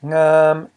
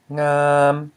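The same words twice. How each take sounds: First: Ngam held high and level; sustained high-pitched ngam. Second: Ngam held long on an even mid tone; drawn-out level ngam. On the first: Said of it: "This is a high tone". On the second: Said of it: "a mid tone". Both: Shown as a demonstration.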